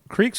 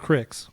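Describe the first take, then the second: First: The vowel is a long 'ee' sound. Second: The vowel is a short 'i' sound. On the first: "it's literally spelled C R E E K" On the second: "But it would be spelled C R I C K"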